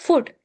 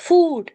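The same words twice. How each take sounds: First: The vowel is said short. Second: The vowel is said long. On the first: The speaker calls it wrong. "don't say it as food" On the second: The speaker calls it right. "it's food"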